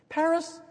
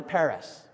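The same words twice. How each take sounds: First: "Paris" lifted high and held apart; "Paris" sung out high as a pointed aside; Paris said alone. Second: Said in the usual way. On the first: Shown as a demonstration. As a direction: let "Paris" ring out high on its own, a wry beat. Repeats Paris for emphasis.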